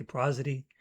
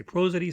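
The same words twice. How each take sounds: First: "prosody" with a short open O, PRAH-zuh-dee; short O pronunciation. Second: "prosody" with a long O, PROH-zuh-dee; long O pronunciation. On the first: Poet showing the other pronunciation, "prosody" with short open O. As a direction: say "prosody" opening like "prah", not "pro". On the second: Poet showing one of two pronunciations, "prosody" with long O. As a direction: say "prosody" opening like the word "pro". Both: Shown as a demonstration. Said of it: "pronounced two different ways".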